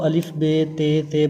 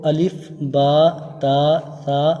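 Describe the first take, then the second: First: The letter names are said the Urdu way. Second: The letter names are said the Arabic way. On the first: The speaker calls it wrong. "Urdu में अमूमन होता है ना कि इसको अलिफ बे ते ते पढ़ा जाता है" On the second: The speaker calls it right. "लेकिन अरबी में इसको अलिफ बा ता सा पढ़ा जाता है"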